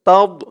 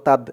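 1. 'd' উচ্চারণটি ভারী ও জোরালো। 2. 'd' উচ্চারণটি সাধারণ ও হালকা। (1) "উচ্চারণটা খেয়াল করবেন" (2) "তাদ বলা যাবে না"

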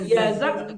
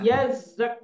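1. Bunyi z pendek dan tunggal. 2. Bunyi z didobel dan ditahan lebih lama. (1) "Kan yazak" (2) "Karena zainya tasdid"

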